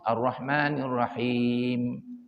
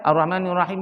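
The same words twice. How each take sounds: First: The phrase is recited slowly and clearly. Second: The phrase is recited quickly and hurriedly. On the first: The speaker calls it right. "yang lebih bagus" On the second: The speaker calls it wrong. "Yang nerajah laju"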